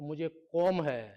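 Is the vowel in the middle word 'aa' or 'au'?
au. The vowel in the middle word is 'au'.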